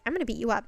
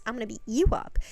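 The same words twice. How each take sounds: First: Said in the usual way. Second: "you" leaned on in a quick retort; stress on "you". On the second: Retold or imitated. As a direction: throw it back, punching "you". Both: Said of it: "they start arguing".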